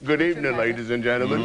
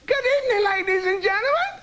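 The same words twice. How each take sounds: First: It is said in a big, heavy voice. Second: It is said in a lighter voice.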